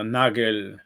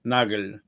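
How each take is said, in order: First: The name is pronounced in a German way. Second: The name is pronounced in a German way.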